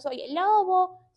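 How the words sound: It is said in a thin, high voice.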